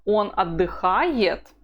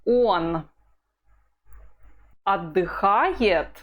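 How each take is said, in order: First: Он stressed, отдыхает falling away; weight on Он, fall at the end. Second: Он отдыхает said slowly, falling; calm falling statement, slowly. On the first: Teacher models the statement, stressing Он. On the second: Teacher reads the drill line slowly, falling. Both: Shown as a demonstration. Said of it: "The intonation is".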